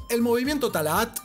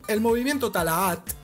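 The two takes are said the same way.

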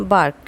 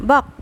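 First: বার্ক with R sounded before K; American sounded R. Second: বাক as "baak" with no R; British silent R. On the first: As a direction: pronounce the R clearly inside বার্ক. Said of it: "ইংলিশে উচ্চারণ হবে". (American উচ্চারণে "বার্ক", র উচ্চারিত) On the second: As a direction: drop the R before the K in বাক. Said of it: "British ওয়ার্ডে উচ্চারণ হবে". (ব্রিটিশ উচ্চারণে "বাক", র ছাড়া) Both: Shown as a demonstration.

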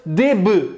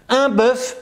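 First: "des bœufs" as "dé beu", silent f; plural pronunciation. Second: "bœuf" with open eu and sounded f, pitched up; singular pronunciation. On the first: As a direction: drop the f and close the vowel in "bœufs". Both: Shown as a demonstration. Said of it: "je recommence une dernière fois".

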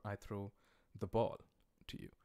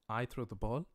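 First: "I" said first and strongest, the rest lighter; stress on I. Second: "ball" hit as the key word, rising; stress on ball. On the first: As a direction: put the weight on "I" as the topic. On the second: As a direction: lean into "ball" so the ball is the topic. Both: Shown as a demonstration. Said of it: "English has stress accents and stress patterns".

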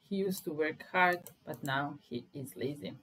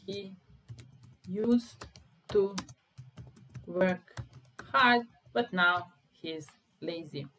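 First: Said in the usual way. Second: Slow, loud, word by word; teacher drilling the sentence; slow stressed drill. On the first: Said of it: "repeats sentence normally". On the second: Shown as a demonstration. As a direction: stretch out "work hard" slowly and loudly. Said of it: "slow stressed teaching delivery".

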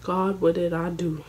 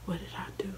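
First: Said in the usual way. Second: Breathless whispered "What did I do"; hushed self-reproach. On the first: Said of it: "first take before whisper". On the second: Retold or imitated. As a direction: whisper it to yourself in shame. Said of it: "whispered repeat".

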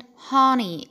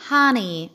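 First: "honey" with a closed, rounded O; British HONEY. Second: "honey" with an open ah; American HONEY. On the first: Teacher showing British "honey", rounded-O pronunciation. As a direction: round the first vowel of "honey". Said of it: "بتتنطق في البريتش أكسنت". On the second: Teacher showing American "honey", open-vowel pronunciation. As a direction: say "honey" like "hahny". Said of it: "في الأمريكان أكسنت بتتنطق". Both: Shown as a demonstration.

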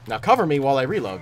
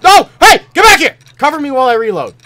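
First: Said in the usual way. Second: Loud high frantic shout; frantic yell. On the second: Real, not acted. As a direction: yell it at the teammate. Teammate leaves him exposed.

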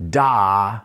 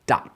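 First: "da" held long with extra punch; sustained, accented "da". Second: "da" cut very short with a punch; short, detached jazz-accent "da"; staccato da. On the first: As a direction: punch "da" and hold it for the full beat. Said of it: "this is sort of like". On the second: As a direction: hit "da" and stop it dead. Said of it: "like a staccato sound". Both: Shown as a demonstration.

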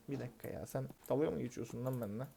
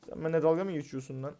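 First: Muttered much softer under his breath, "dalga" kept low; soft disbelieving mutter, "dalga" barely voiced; quiet mutter. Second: Said in the usual way. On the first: Real, not acted. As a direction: grumble "sen dalga mı geçiyorsun lan benimle" quietly to himself. Customer mocking him, muttered then said aloud.

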